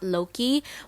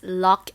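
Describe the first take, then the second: First: The name is said as two syllables. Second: The name is said as one syllable. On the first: The speaker calls it wrong. "and not Loki" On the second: The speaker calls it right. "the actual pronunciation is Locke"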